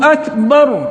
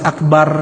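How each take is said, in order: First: The r sound is heavy and thick. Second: The r sound is light and thin. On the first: The speaker calls it right. "Jelaskan ra-nya dan tebal" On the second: The speaker calls it wrong. "Jangan akbar"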